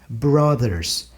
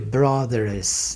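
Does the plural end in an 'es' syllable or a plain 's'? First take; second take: plain s; es. First: The plural ends with a plain 's' sound. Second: The plural ends with an added 'es' syllable. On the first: The speaker calls it right. "Eu tenho que dizer brothers. Não ganha E S" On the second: The speaker calls it wrong. "jamais eu vou dizer"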